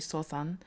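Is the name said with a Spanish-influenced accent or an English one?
Spanish-influenced. The name is said with a Spanish-influenced accent.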